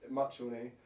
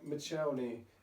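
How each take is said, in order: First: The first syllable sounds like 'much'. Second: The first syllable sounds like 'mitch'. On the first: This is how locals say it. The speaker calls it right. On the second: This is how the news said it. The speaker calls it wrong.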